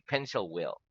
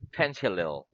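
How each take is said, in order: First: Will is said in full after pencil. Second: Will is contracted onto pencil. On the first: The speaker calls it right. "We say pencil will" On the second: The speaker calls it wrong. "we do not say pencil will or pencilil"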